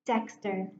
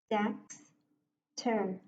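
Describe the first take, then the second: First: Said in the usual way. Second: "Dexter" in two chunks, Dex, long pause, ter; split into syllables. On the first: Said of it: "break the word and read it". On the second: Shown as a demonstration. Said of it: "I will break the word and read it".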